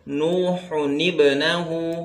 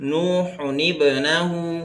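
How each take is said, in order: The two takes are said the same way.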